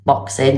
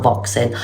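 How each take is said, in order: First: Said in the usual way. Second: "boxing" said with a V, as "voxing"; mispronounced boxing. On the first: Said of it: "not boxing". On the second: Shown as a demonstration. Streamer correcting a slip, "boxing" mispronounced as "voxing". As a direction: start "boxing" with a V instead of B. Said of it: "not boxing, boxing events".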